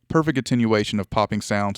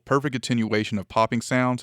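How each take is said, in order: First: The voice sounds very close with boosted bass. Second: The voice sounds farther away with less bass.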